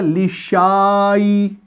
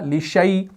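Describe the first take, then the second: First: The vowel after sh is a long aa. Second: The vowel after sh is a short diphthong. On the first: The speaker calls it wrong. "अगर इसको जोड़ा जाएगा तो ये बनेगा लिशाई, तो ये सही नहीं है" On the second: The speaker calls it right. "इस अलिफ को अगर आप यहां पर हटाएंगे ना तब भी ये पढ़ा जाएगा लिशै"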